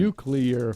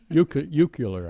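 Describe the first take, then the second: First: It is said with the standard 'nu-clear' syllables. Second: It is said with extra syllables, like 'nu-cu-lar'.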